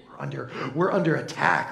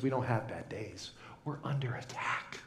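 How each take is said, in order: First: Said in the usual way. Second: Whisper. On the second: Pretend.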